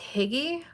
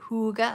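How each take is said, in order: First: It is said in an anglicized way, like higgy. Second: It is said in the Danish way. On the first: The speaker calls it wrong. "which I like to say it's higgy" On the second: The speaker calls it right. "pronounced it the correct way for me, and now I have to say"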